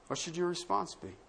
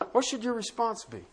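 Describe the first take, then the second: First: The question asked again, much softer; hushed echo of the question; softer repeat. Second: Said in the usual way. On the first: Shown as a demonstration. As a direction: let "What should your response be?" sink in quietly.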